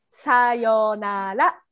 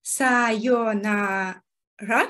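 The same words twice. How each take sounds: First: さよなら drawn out slowly, each syllable clear; slow model. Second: さよなら repeated slowly after the teacher. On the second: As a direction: echo さよなら slowly, carefully. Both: Shown as a demonstration.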